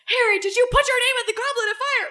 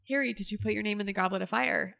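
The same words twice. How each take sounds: First: It is asked in an angry, forceful voice. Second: It is asked in a calm, gentle voice.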